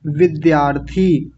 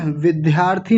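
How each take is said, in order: First: विद्यार्थी as vid-dyaar-thee, drawn out; unaspirated dy. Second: विद्यार्थी as vidh-yaarthi, breath on the d; aspirated dy. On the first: Teacher correcting the class, विद्यार्थी as vid-dyaar-thee. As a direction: keep the d of विद्यार्थी free of h. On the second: Teacher showing the mistake, विद्यार्थी with dhy. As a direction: add an h to the d of विद्यार्थी. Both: Shown as a demonstration. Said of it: "विद्यार्थी नहीं होता".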